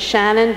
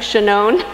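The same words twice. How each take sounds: First: The name is pronounced the Irish way. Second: The name is pronounced the Israeli way. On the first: The speaker calls it wrong. "giving it the Irish pronunciation" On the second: The speaker calls it right. "I think, Shannon, Israeli"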